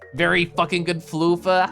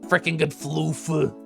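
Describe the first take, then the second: First: It is said in her normal voice. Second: It is said in a put-on voice.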